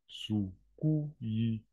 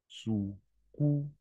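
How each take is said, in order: The two takes are said the same way.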